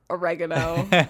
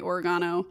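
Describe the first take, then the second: First: The word is said with an American pronunciation. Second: The word is said with a British pronunciation. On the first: "how American people say it" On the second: "British. It's British"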